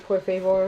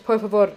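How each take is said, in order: First: "por favor" with English vowels, favor like "FAY-ver"; badly pronounced "por favor", rhyming with "flavor"; anglicized Spanish. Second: "por favor" with Spanish vowels, fah-VOR; more careful Spanish-sounding "por favor"; corrected Spanish pronunciation. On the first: Real, not acted. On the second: Shown as a demonstration. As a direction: fix "por favor", stressing the last syllable, fah-VOR. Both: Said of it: "I made it sound better".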